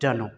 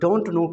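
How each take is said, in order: First: It is reduced to one word, dunno. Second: It is said in full as two words.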